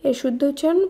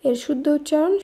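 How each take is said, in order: The two takes are said the same way.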